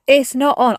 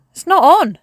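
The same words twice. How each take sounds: First: Said in the usual way. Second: Higher and louder, firm fall on on; indignant louder protest; emphatic protest. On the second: Real, not acted. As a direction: declare it loudly, fed up. Complaining about the weather swap.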